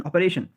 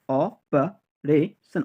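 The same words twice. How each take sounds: First: Said in the usual way. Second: operation slowly as o-pa-re-son; syllable by syllable. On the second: Shown as a demonstration. Teacher drilling learners, operation in slow separate syllables.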